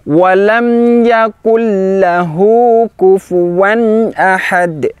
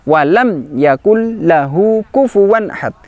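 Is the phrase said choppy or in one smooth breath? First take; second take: smooth; choppy. First: The phrase flows smoothly in one breath. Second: The phrase is broken up into choppy pieces. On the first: The speaker calls it right. "Satu tarikan nafas, satu aliran nafas" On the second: The speaker calls it wrong. "contoh yang kurang tepat, keliru ... Seperti terputus-putus"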